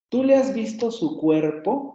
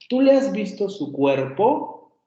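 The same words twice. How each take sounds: First: The first syllable of 'cuerpo' is more prominent. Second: The second syllable of 'cuerpo' is more prominent. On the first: "El acento recae en cuerpo" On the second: "cuando hacemos la marca entonativa de pregunta, enfatizamos más la segunda vocal"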